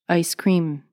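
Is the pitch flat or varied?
flat. The pitch stays level throughout. "No pitch"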